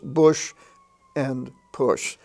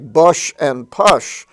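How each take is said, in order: First: The vowel does not rhyme with gush. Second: The vowel rhymes with gush and hush. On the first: This is how the words are really said. The speaker calls it right. "but they're pronounced bush and push" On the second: This is how the spelling suggests it. The speaker calls it wrong. "They're spelled like bush and push"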